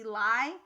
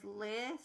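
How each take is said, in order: First: The vowel is a long 'eye' sound. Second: The vowel is a short, reduced sound. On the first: This is the usual reading of the spelling. The speaker calls it wrong. "It would normally be a normally be lie" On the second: This is how it sounds in this word. The speaker calls it right. "but in this word it is le"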